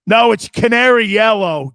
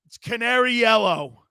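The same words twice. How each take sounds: First: Loud. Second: Said in the usual way. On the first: Real, not acted.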